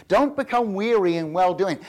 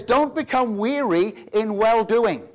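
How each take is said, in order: First: Said in the usual way. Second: Slow, loud read of the verse; stately scripture quote. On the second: Shown as a demonstration. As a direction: savour each word of the King James line. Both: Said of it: "I love that phrasing".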